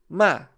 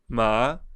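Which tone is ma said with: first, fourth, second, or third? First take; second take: fourth; second. First: It is said with a short, sharply falling tone. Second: It is said with the second tone. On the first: "O quarto é o tom descendente. E ele é curto e grosso"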